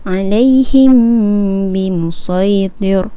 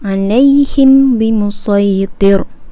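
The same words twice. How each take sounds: First: The m is a held nasal hum, two beats. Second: The m is said clearly with no held hum. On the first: The speaker calls it right. "kita akan baca secara dengung dua harakat" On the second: The speaker calls it wrong. "itu tidak dengung"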